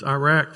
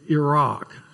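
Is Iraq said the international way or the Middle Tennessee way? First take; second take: Middle Tennessee; international. First: Iraq is said with a Middle Tennessee pronunciation. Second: Iraq is said the way most countries say it. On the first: "That's Iraq for you in Middle Tennessee" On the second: "as most countries like to pronounce it"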